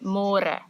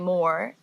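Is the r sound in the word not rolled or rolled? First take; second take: rolled; not rolled. First: It is said with a rolled, trilled r. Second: It sounds like English 'more', r not rolled. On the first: The speaker calls it right. "say môre" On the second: The speaker calls it wrong. "So don't say more"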